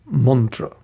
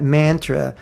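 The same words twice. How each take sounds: First: "mantra" as MUN-truh, drawn out slowly; correct "mantra". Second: "mantra" with a flat English "man" as in cat; wrong "mantra". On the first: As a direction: say "mantra" Sanskrit-style with an open "uh". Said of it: "it's mantra". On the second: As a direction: say "mantra" the American way, MAN-truh. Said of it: "It's not mantra". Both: Shown as a demonstration.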